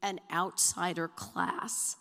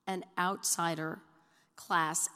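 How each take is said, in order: First: Said in the usual way. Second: "An outsider" then "class." said louder, each stressed apart. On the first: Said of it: "title of my two thousand and fourteen book". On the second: Real, not acted. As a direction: pause between "An outsider" and a loud "class.".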